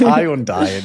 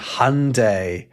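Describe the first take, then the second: First: It is said the British way, not like Sunday. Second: It is said the American way, rhyming with Sunday.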